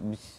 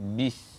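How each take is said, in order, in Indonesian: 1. Huruf b lemah dan tidak ditahan dengan tegas. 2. Huruf b bersuara, ditahan dengan tegas, dan jelas. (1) "jangan sebut bis" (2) "kita sebut tu dengan jelas"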